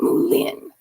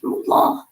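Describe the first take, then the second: First: The final sound of the word is pronounced. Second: The final sound of the word is left off. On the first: The speaker calls it wrong. "not Moulin" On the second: The speaker calls it right. "you always leave off the end, like Moulin Rouge is Moulin"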